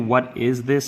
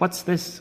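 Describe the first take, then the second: First: The word 'is' is said as a separate word. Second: The word 'is' is contracted onto 'what'. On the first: The speaker calls it wrong. "most people don't say the is" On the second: The speaker calls it right. "so I'm just going to be like"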